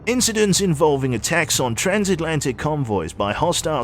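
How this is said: It is read in a put-on British accent.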